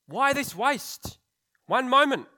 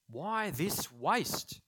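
First: Much higher and louder, dragged-out indignant cry; indignant outburst. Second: Slow indignant question. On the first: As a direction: blurt it out, scandalised. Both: Acted.

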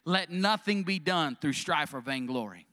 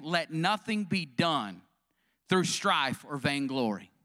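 First: Said in the usual way. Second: Each word laid down slowly, weight on nothing; preacher slowly drives home the verse to the congregation, stressing nothing; slow emphatic refrain. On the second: Shown as a demonstration. Spell it out slowly, lean on nothing.

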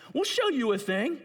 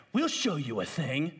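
First: Taunting repeat. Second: Said in the usual way. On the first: Acted.

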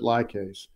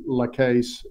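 First: "lye case", first syllable like eye; lye case pronunciation. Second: "la case", short unstressed first syllable; la case pronunciation. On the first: Guest giving his own pronunciation, "lye case" with LYE. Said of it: "I pronounce it lye case". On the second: Guest citing another version he hears, "la case" with LA. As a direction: say "la" in "la case" as a quick luh, no long I. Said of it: "but I hear la case as well". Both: Shown as a demonstration.

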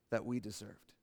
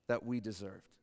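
No difference in how they are said.

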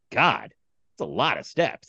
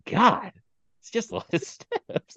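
First: Said in the usual way. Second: Put-on high, slow, sighing old man; imitating the old man. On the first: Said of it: "the guy next to me just goes". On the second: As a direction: mimic a tired old man complaining about stairs. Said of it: "The way he said".

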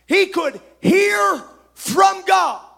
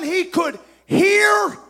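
First: "He" and "hear" hit loud, slow and high; stress on he and hear. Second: "hear" drawn out, slow and loud; stress on hear. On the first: Preacher repeating the key line, "He" punched slowly. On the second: Preacher pressing his point to the church, "hear" stressed slowly. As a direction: lean hard on "hear". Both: Shown as a demonstration. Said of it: "have you picked up that I'm stressing this".

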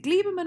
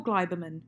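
First: "Gleiberman" said as GLEE-ber-man; long "ee" in the first syllable of "Gleiberman"; first pronunciation option. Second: "Gleiberman" said as GLY-ber-man; first syllable of "Gleiberman" rhymes with "eye"; second pronunciation option. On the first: Host checking a writer's name, "Gleiberman" with an "ee" sound. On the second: Host offering the other reading, "Gleiberman" with an "eye" sound. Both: Shown as a demonstration. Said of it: "is it Gleiberman or Gleiberman?".

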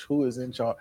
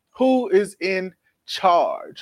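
First: Softer, lower, trailing away; fading repeat. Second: WHO stretched out slowly; slow dramatic question. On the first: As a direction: let it fade out. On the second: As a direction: drag out each word. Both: Acted.

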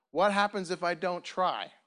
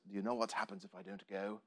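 First: Said in the usual way. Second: Put-on low, soft, lightly done Scottish accent; attempted Scottish accent. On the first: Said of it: "I've always loved that quote 'cause it says". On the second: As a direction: try a hushed Scottish hero's accent. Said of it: "That's the best Scottish accent I have".

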